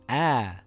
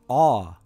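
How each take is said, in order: First: The vowel is thin and light, mouth open. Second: The vowel is full and deep, mouth full. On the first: "in a light sound" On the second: "in a heavy sound"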